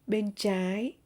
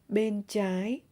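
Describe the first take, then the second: No difference in how they are said.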